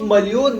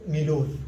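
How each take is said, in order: First: مليون said as "malyun", as written; Arabic-style pronunciation. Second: مليون said as "milun"; Pashto pronunciation. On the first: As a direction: say مليون with "mal-" and a y before the long u. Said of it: "نكتب مليون مثل العربي". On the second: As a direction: say مليون as "mi-loon", dropping the y. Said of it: "لكن نلفظ". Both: Shown as a demonstration.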